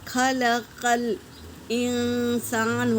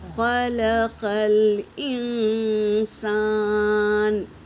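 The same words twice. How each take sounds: First: The q sound is light like k. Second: The q sound is heavy and full. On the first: The speaker calls it wrong. "छोटे काफ से पढ़ेंगे ... ये गलत है" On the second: The speaker calls it right. "इसे हम पुर ही पढ़ेंगे"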